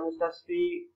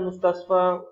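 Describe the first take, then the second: First: The word ends with an 'i' vowel. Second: The word ends with an 'a' vowel. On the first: The speaker calls it wrong. "laisa mustasfi" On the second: The speaker calls it right. "Lima dah ada mustasfa"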